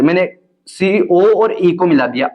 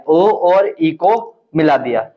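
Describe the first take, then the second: First: Said in the usual way. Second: Slow, word by word, for writing down; slow dictation. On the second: Shown as a demonstration. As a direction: dictate so students can copy. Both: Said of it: "रचना में लिख देना आप".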